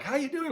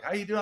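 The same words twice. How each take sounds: First: Much higher, strained hello; tired greeting. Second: Bright, high hallway hello; cheery greeting. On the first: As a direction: ask it like the energy is slipping. September greeting, energy fading. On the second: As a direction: toss it out full of August energy. August hallway greeting, contrasted with later months. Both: Retold or imitated.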